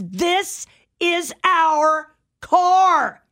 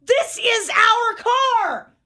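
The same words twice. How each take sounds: First: Slow, high, indignant insistence; mock-angry stranger claiming the car; angry retort. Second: Much higher, slow, stretched out in disbelief; wife mimicking the stranger's words back at her; exasperated insistence. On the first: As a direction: drag each word out like a stubborn stranger. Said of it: "looks at her angry and says". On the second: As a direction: fire it back, drawn out and incredulous. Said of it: "And I go".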